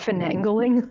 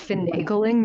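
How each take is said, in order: First: An extra n sound comes before the g. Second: No extra n sound comes before the g. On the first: The speaker calls it wrong. "not finangling?" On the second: The speaker calls it right. "that it's finagling"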